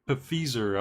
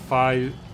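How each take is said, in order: First: The first syllable sounds like 'pif'. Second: The first syllable sounds like 'fie'. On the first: The speaker calls it wrong. "I don't know how to pronounce that" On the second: The speaker calls it right. "like the first syllable of F, or sorry, of five, and the first of zero"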